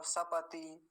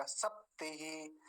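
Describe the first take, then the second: First: सपति with a full vowel after प; wrong full प. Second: सप्तिहि with half प and short ति; kurzes i. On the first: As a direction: open up the प to a whole syllable in सपति. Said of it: "ऐसा तो करेंगे नहीं". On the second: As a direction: keep the ति short after a stopped प in सप्तिहि. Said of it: "तो जल्दी बोला जाएगा". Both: Shown as a demonstration.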